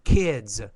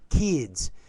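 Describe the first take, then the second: First: The vowel is a short lax 'ih' sound. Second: The vowel is a tense 'ee' sound. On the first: The speaker calls it right. "but the kids" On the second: The speaker calls it wrong. "You have the E, E, like kids"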